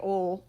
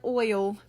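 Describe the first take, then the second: First: It is said quickly with a Southern accent. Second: It is said slowly and carefully. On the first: "if I say it fast, it comes out like oil" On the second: "I had to say that very slowly"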